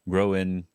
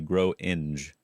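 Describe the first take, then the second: First: The word ends without a g sound. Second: The word ends with a sounded g.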